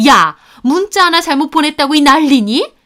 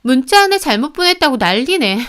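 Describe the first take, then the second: First: High, loud rebuke rising at the end; scandalized mother-in-law, raised voice; outraged scolding. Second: Higher, scoffing grumble falling at the end; put-out, raised-pitch griping; indignant complaint. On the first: Acted. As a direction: demand indignantly why all the fuss. Mother-in-law scolds over one text. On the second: A narrator's reading. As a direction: dismiss it all as a fuss. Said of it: "막 발작하듯 소리를 지르더라고요".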